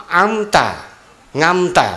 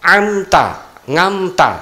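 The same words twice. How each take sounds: No difference in how they are said.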